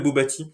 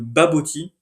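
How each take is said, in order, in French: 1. La première voyelle se prononce comme un 'o'. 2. La première voyelle se prononce comme un 'a'. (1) "pas le bobati" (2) "Ça s'appelle le baboti"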